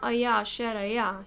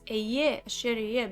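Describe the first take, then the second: First: The key word is said with an 'a' vowel. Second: The key word is said with an 'e' vowel. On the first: It is past tense, as if only in the past. The speaker calls it wrong. "So he's not Aya Asher Aya" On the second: It is not limited to the past. The speaker calls it right. "He's Eye Asher Eye because he's infinite"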